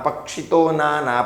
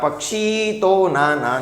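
First: The vowel at the end of pakshi is short. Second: The vowel at the end of pakshi is long. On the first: The speaker calls it right. "તમે બોલવા સમયે એને તીરથી પક્ષિતો નાના" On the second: The speaker calls it wrong. "પક્ષી તો નાના નહીં બને"

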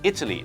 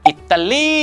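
First: It is said with an English accent. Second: It is said with a Thai accent. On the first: "แต่ถ้าสำเนียงฝรั่งเป็น" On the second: "อิตาลีคือสำเนียงไทย"

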